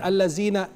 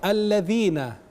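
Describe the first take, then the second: First: The middle consonant is a plain z sound. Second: The middle consonant is a voiced th sound. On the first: The speaker calls it wrong. "beda dengan zai" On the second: The speaker calls it right. "alladzina itu huruf dzal"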